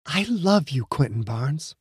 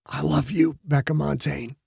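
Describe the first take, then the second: First: Soft, tender whisper; soft loving whisper to her new husband. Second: Soft, choked-up croak; groom's choked reply to his bride; cracked croak. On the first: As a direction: breathe it into his ear. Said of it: "whispered in his ear". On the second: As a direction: let the voice crack with emotion. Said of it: "came out as a cracked croak". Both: A narrator's reading.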